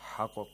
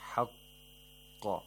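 First: The q sound is short, not held. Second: The q sound is held, then released. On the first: The speaker calls it wrong. "We don't say" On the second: The speaker calls it right. "hold the qaf a little and then release it"

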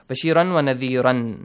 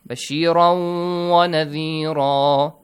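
First: The final word ends with an n sound. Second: The final word ends with a long vowel. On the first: The speaker calls it wrong. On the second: The speaker calls it right. "You no longer pronounce it with a tanween sound"

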